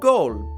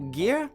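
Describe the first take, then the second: First: The name is said with an Old Norse pronunciation. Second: The name is read as its English spelling. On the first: "the Old Norse pronunciation" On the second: "spelled G E I R"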